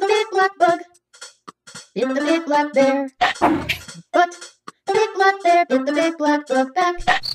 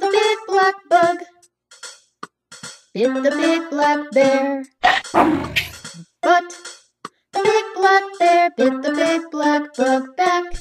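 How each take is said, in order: First: It is said at the fastest pace. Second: It is said at a faster pace.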